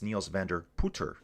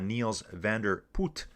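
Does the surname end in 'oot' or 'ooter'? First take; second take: ooter; oot. First: The surname ends with an added 'er' syllable. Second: The surname ends without an extra syllable. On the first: The speaker calls it right. "You have to put the E R on the end" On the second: The speaker calls it wrong. "It's kind of like"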